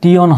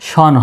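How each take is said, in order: First: The ending sounds like tee-on. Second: The ending sounds like shon. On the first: The speaker calls it wrong. "টিওন হবে না" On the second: The speaker calls it right. "শন হবে"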